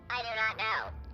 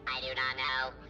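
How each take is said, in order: First: It is said with lots of inflection. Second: It is said with little inflection.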